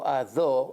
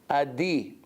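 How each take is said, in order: First: The vowel after the d is not 'ee'. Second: The vowel after the d is 'ee'. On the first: The speaker calls it right. "that's the right way to pronounce" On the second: The speaker calls it wrong. "They have chirik under the dalet. This is incorrect"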